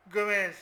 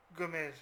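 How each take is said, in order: First: Called out much louder; excited call. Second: Said in the usual way. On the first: Real, not acted. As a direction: shout the name at the screen. Suit l'action de Gomez. (crie le nom beaucoup plus fort)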